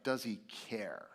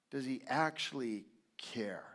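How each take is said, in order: First: Said in the usual way. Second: Hushed whispered question; breathy whispered doubt. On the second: Shown as a demonstration. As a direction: whisper it close and searching.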